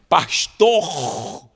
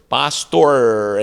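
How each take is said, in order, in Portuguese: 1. O r final não é enrolado para trás. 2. O r final é enrolado para trás, estilo americano. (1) "parecia um, um reto no final" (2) "enrolando a língua"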